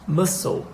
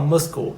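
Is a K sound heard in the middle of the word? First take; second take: no; yes. First: No K sound is heard in the middle. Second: A K sound is heard in the middle. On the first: The speaker calls it right. "eu vou falar muscle" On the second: The speaker calls it wrong. "eu não vou falar muscle"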